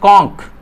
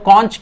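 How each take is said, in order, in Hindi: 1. शब्द 'k' ध्वनि से खत्म होता है। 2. शब्द 'ch' ध्वनि से खत्म होता है। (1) "but basically it is pronounced कॉन्क" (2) "ये आपको बहुत लोग कॉन्च कहते हैं"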